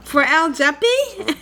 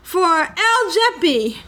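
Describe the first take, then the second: First: It is said with a rising question tune. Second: It is said flatly, without a rising question tune.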